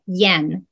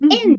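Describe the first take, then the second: First: It starts with a y sound before e. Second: It starts directly with the vowel e. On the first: The speaker calls it right. "Y の音をつけます。" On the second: The speaker calls it wrong. "円じゃなくて"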